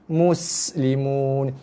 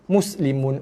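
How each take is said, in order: First: The s sound is longer and softer. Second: The s sound is short, tight and hard. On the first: The speaker calls it right. "perhatikan bunyi dia" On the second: The speaker calls it wrong. "bunyi sin tu kontot dan ketat dan keras"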